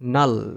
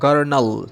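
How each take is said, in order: First: The word begins with an n sound. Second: The word begins with a hard g sound. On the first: The speaker calls it right. "জিটা silent হয়ে যাবে এটার সঠিক উচ্চারণ হবে নাল" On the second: The speaker calls it wrong. "এই শব্দটার উচ্চারণ যদি আমরা করি এরকম যে গর গার্নাল ... তাহলে তো এটা হবে না"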